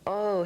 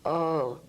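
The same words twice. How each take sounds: First: The oh sounds high, resonating in the head. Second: The oh sounds low, resonating in the belly. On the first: It releases tension from a headache. "the sound goes from oh, head" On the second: It releases tension from a stomach ache. "down to oh, tummy"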